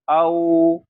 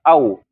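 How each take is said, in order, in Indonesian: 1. Bunyinya diucapkan dengan lembut. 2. Bunyinya diucapkan dengan keras. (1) "enggak, tapi au" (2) "jangan ditekan, jangan dihentak"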